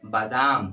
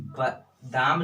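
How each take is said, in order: First: बादाम with long first vowel, baa-daam, firmly; teacher models the right बादाम as baa-daam, long first vowel; correct pronunciation. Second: बादाम said with short first vowel, bə-daam; teacher shows the wrong बादाम as bə-daam; wrong pronunciation. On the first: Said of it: "क्या होता है? बादाम।". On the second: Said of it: "बादाम नहीं होता है". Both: Shown as a demonstration.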